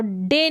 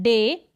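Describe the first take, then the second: First: "डे" with the vowel cut short. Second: "डे" with a drawn-out A; long A. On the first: Teacher showing how not to say it, short vowel. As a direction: say "डे" briefly, no held vowel. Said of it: "डे नहीं बोल रहे हैं". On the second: Teacher modelling the AY ending, long vowel. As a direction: hold the vowel in "डे". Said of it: "long पढ़ रहे हैं ना". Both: Shown as a demonstration.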